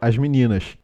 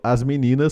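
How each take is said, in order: First: The final S sounds like a hushing SH. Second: The final S sounds like a plain hissing S.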